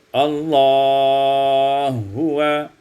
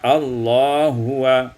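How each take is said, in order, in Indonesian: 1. Vokal sebelum h yang dilebur itu panjangnya sedang. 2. Vokal sebelum h yang dilebur itu pendek. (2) "di qasar"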